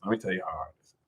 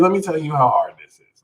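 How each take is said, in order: First: Much softer, half to himself; quieter repeat. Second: Said in the usual way. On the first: Shown as a demonstration. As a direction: drop it to a murmur.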